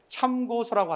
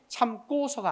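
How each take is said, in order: First: The second syllable starts with a plain consonant. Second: The second syllable starts with a tense consonant. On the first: The speaker calls it right. "참고서라고 하지" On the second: The speaker calls it wrong. "참고서가 아니라는 거예요"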